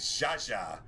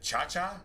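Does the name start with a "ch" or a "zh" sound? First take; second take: zh; ch. First: Each syllable starts with a "zh" sound. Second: Each syllable starts with a "ch" sound. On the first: "Like Zsa Zsa Gabor?" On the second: "Like, like a Chinese pronunciation"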